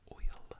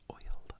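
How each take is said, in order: Both takes have the same delivery.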